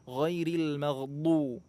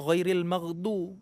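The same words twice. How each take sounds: First: The consonant is a heavy, side-of-tongue dh. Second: The consonant is said like a plain d. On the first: The speaker calls it right. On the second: The speaker calls it wrong.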